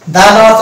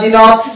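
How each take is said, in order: First: The article is said with a short 'thuh' vowel. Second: The article is said with a long 'thee' vowel. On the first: The speaker calls it right. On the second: The speaker calls it wrong.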